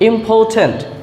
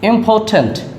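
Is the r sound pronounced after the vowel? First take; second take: no; no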